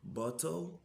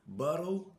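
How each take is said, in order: First: It is said in a British accent. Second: It is said in an American accent. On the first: "anglais britannique" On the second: "anglais américain"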